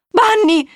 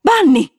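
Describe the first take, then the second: First: Very high, loud shriek; a girl shrieking at her revived pet. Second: Put-on high, loud cry of a child's name; a girl's sudden loud cry; shouted. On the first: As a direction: shriek the name in joy and disbelief. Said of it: "strillò di nuovo". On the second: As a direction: yell the name across the yard. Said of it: "e urlò". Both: A narrator's reading.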